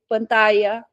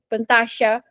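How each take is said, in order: First: The double L is said as a y sound. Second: The double L is said as a sh sound. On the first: "na Espanha, você vai falar" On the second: "quando você vai para a Argentina, você fala"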